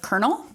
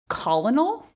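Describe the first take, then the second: First: The word is said like 'kernel'. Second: The word is sounded out letter by letter. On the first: The speaker calls it right. "instead of colonel" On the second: The speaker calls it wrong. "how long I said colonel"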